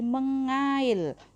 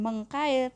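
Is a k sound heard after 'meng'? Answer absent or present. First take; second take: absent; present. First: No k sound follows the ng sound. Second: A k sound follows the ng sound. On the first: The speaker calls it right. "menjadi mengail" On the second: The speaker calls it wrong. "bukan mengkail"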